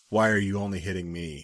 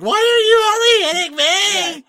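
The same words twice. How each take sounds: First: It sounds depressing and sad. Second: It sounds light and not sad.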